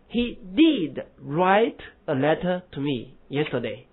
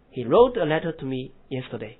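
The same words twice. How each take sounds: First: Slow He did write, did hit hard; stress on did. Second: Said in the usual way. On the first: Shown as a demonstration. Teacher contrasting emphatic did for the class. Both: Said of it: "那么他昨天确实给我写了一封信".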